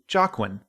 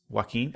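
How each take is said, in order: First: The name starts with a hard J sound. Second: The name starts without a hard J sound. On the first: The speaker calls it wrong. "I called him Jarquin" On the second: The speaker calls it right. "I know that it's pronounced that way"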